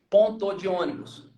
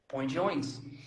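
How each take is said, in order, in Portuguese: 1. Cada sílaba de 'ponto de' é falada por inteiro. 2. 'Ponto de' é reduzido a uma só sílaba nasal. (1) "A gente não fala ponto de" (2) "Aí fala, põe de ônibus"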